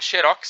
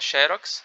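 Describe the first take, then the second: First: The stress is on the last syllable. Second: The stress is on the first syllable. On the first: This is the English-style form. "seria do inglês sem acento" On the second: This is the Portuguese-adapted form. "Tem com acento, que é o portuguesado"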